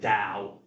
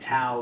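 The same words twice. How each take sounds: First: It begins with a softer D-like sound. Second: It begins with a hard T sound. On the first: The speaker calls it right. "It should really be pronounced Tao" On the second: The speaker calls it wrong. "I grew up saying Tao because I'm a literalist and I saw a T"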